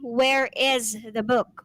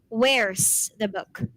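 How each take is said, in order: First: 'Where is' is said as two full words. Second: 'Where is' is shortened to one syllable. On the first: The speaker calls it wrong. "We do not say" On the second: The speaker calls it right. "But we say"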